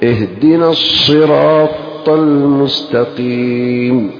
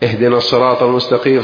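First: The ṣ sound is clearly doubled. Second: The ṣ sound is not clearly doubled. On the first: The speaker calls it right. "فلا بد تشدد في الأولى" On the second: The speaker calls it wrong. "ما يبان في قراءته الفرق بينهم والتشديد"

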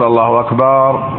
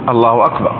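First: The last vowel of akbar is drawn out long. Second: The last vowel of akbar is short. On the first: It turns the word into the plural of drum. The speaker calls it wrong. "ولا يقول الله أكبر" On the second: God is greater. The speaker calls it right. "فليقول الله أكبر"

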